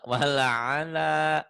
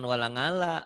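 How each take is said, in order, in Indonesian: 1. Konsonan tengahnya hentian tenggorokan. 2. Konsonan tengahnya bunyi 'ng'.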